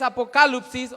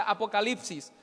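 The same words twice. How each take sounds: First: "apocalipsis" as Greek a-po-KA-lup-sis; Greek pronunciation. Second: Said in the usual way. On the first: Shown as a demonstration. Teacher naming the Greek root, "apocalipsis" said a-po-KA-lup-sis. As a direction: put the stress on KA in "apocalipsis", with "lup" for "lip". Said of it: "la raíz griega de manifieste es". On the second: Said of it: "o sea, apocalipsis".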